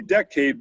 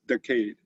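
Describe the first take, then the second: First: Said in the usual way. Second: Decade in a Boston accent, dropped r and broad vowels. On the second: Shown as a demonstration. Speaker showing how decade sounds in a Boston accent. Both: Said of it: "but with a Boston accent".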